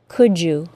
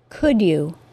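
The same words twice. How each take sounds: First: The d and y blend into j. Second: Both words are said separately, with no blending. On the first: "with the assimilated CH sound and J sound" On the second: "articulate perfectly, with no assimilation"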